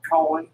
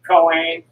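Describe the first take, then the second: First: "Cohen" with a reduced second vowel; "Cohen" pronounced koh-un, the ending unstressed; variant pronunciation. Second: "Cohen" with a long AY in the second syllable; "Cohen" pronounced koh-ayn, both vowels full; variant pronunciation. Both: Real, not acted. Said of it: "however you pronounce it".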